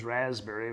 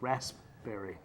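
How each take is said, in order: First: The p sound is dropped, like razberry. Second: The p sound is clearly pronounced. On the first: The speaker calls it wrong. "Everybody says raspberry, but that's not the pronunciation" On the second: The speaker calls it right. "it's R A S P, berry, raspberry"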